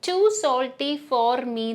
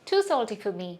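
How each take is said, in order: First: The word for is said fully. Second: The word for is reduced to fuh. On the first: The speaker calls it wrong. "ഞാൻ പറയുന്നത് too salty for me എന്നല്ല" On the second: The speaker calls it right. "for എപ്പോഴും connected സ്പീച്ചിൽ ഫ ആയിട്ട് മാറും"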